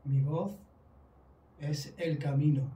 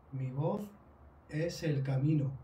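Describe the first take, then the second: No difference in how they are said.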